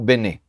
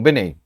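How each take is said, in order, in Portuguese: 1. A palavra termina em um e aberto simples. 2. A palavra termina em um ditongo ei. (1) "é o leu Bené" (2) "e não Benei"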